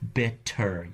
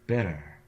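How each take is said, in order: First: The t is a full, crisp stop. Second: The t is a quick, light flap. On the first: The speaker calls it wrong. "if you say it with too much emphasis and too much attention" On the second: The speaker calls it right. "the tongue either brushes by the alveolar ridge"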